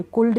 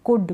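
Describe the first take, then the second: First: कुल्ड with a clear L before the D; L wrongly sounded. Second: कुड with a short vowel straight into D; silent L. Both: Shown as a demonstration. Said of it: "कुल्ड नहीं".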